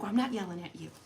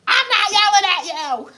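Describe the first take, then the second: First: Soft, contained mock denial; restrained denial. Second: High, loud mock shout; mock yelling. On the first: Wife retelling her denial to husband, restrained. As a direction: keep it low-key, insisting you're not yelling. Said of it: "I'm like". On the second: Wife contradicting herself to husband, hammed-up yelling. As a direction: blow up, yelling the denial for comedy. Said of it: "as she stomps her foot".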